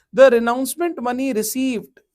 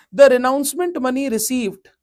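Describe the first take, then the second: Both takes have the same delivery.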